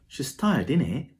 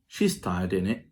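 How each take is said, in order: First: It sounds uncertain, like a real question. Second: It sounds certain, just seeking agreement. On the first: The speaker is unsure whether she is tired. "it sounds like a real question" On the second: The speaker is confident she is tired. "you're seeking an agreement from the listener, but you're sure that she's tired"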